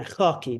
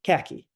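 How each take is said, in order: First: Khaki starting with a throaty kh rasp and open a; Persian khaki. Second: Khaki with a plain English k and flat a. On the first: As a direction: scrape the kh in khaki at the back of the throat. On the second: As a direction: say khaki the American way, hard k. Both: Shown as a demonstration. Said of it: "okay, kha".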